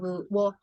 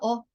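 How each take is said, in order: First: It begins with a w glide. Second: It is a short plain vowel sound. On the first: "instead of wo" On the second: "It's pronounced as a o, a short sound"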